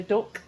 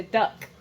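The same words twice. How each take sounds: First: DUCK with a Yorkshire vowel, like "dook"; imitated Yorkshire pronunciation of duck; Yorkshire accent. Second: DUCK with a southern open "uh" vowel; imitated southern English pronunciation of duck; southern accent. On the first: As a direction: say duck in broad Yorkshire, short "oo" as in book. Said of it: "You said that very Yorkshire". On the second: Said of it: "You'd normally say duck".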